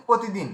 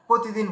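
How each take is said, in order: Both takes have the same delivery.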